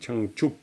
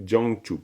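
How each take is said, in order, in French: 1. La première syllabe commence par un son 'ch'. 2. La première syllabe commence par un son 'j'. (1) "c'est Chang" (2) "c'est pas du tout Jiangchup"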